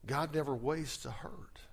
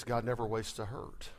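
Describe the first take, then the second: First: Whispered. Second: Said in the usual way. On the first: Shown as a demonstration. Repeating the quote softly. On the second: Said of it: "is this".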